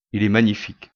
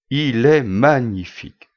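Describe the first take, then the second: First: Said in the usual way. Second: Slow, drawn-out marvelling exclamation; exclaiming admiration. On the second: Acted. Customer admiring the object shown at the till, exclaiming. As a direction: savour each word, louder, in open admiration. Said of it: "s'exclama-il".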